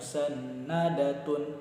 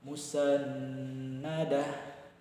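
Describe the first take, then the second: First: The word ends with a full 'tun' ending. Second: The word ends with a soft h sound. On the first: The speaker calls it wrong. "jangan dibaca musannadatun" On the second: The speaker calls it right. "kita wakafkan sehingga cara membacanya cukup dengan musannadah"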